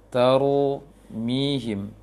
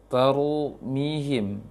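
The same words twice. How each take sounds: Both takes have the same delivery.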